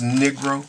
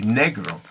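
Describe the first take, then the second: First: The word has an English pronunciation. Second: The word has a foreign pronunciation. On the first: "even though it says Negro" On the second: "the way people might pronounce it in other countries would be negro"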